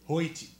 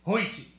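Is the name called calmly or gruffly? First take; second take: calmly; gruffly. First: The name is called in a plain, calm voice. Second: The name is yelled in a stern, gruff voice.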